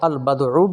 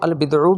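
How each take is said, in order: First: The vowel after the b is 'a'. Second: The vowel after the b is 'i'. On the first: "फ़तहे के साथ" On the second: "कसरे के साथ"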